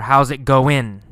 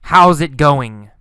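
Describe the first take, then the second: First: "goin'" ending in a plain n; casual "goin'" with an -in ending; dropped g. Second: "going" with the final ng sounded; "going" in full, not shortened to "goin'"; full -ing ending. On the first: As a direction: drop the g so "going" becomes "goin'". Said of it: "Sometimes no g sound". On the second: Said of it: "sometimes g". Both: Shown as a demonstration.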